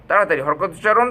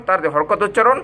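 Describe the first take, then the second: Both takes have the same delivery.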